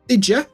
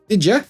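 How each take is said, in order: First: The two words blend together into one. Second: The two words blend together into one.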